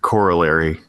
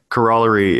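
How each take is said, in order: First: The stress is on the first syllable. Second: The stress is on the second syllable. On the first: This is the American way of saying it. "is American English" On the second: This is the British way of saying it. "is like UK English"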